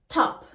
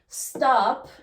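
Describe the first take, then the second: First: The word starts without an S sound. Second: The word starts with an S sound.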